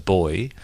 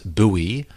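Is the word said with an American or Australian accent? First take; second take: Australian; American. First: It is said the Australian way. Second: It is said the American way.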